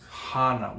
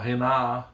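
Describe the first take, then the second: First: The first vowel sounds like ah. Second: The first vowel sounds like eh. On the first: The speaker calls it right. "there's a proper way of saying these Hawaiian words" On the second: The speaker calls it wrong. "or Hena"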